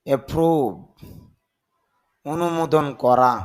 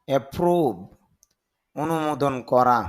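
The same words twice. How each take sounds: Both takes have the same delivery.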